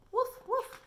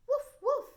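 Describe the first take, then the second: First: High, loud little woof woof; puppy woofs. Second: High, loud yappy woof woof; dog barking. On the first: Retold or imitated. Teacher recalling the dogs barking, high yappy woofs. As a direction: yap it out like a small dog. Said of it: "they said". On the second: Shown as a demonstration. Teacher voicing the little dog for kids, high yappy barks. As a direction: bark like a tiny puppy. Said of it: "said a little dog".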